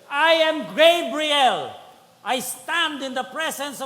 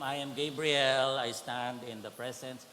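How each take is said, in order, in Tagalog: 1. Binabasa ito sa dramatiko at naiinis na tono. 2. Binabasa ito sa flat, hindi dramatikong tono. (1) "dapat may drama ng konti" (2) "Hindi ganon ang tono"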